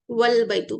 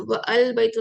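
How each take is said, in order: First: वल बैतु with a silent alif, wal-baitu; teacher shows the correct joined reading; correct joined form. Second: व अल बैतु with the alif sounded, wa al baitu; teacher shows the reading to avoid; wrong separate form. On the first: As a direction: run वल बैतु together as one word. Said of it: "पढ़ते". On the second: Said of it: "नहीं पढ़ते". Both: Shown as a demonstration.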